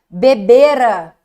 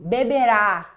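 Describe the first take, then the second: First: The final syllable is weak and unstressed. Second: The final syllable carries the stress. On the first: It is an action before another past action. "aquela desinência ra, fraca" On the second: It is a future action. "Beberá com acento tônico é futuro"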